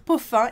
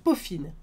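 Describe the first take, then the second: First: The word ends in a nasal vowel. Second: The word ends in a clear n sound. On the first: The speaker calls it wrong. "faut pas dire Poffin" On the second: The speaker calls it right. "il faut dire Poffine"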